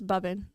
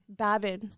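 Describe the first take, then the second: First: The first vowel sounds like the vowel in 'cub'. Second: The first vowel sounds like the vowel in 'cab'. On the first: This is how the family says it at home. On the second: This is how the name is usually said.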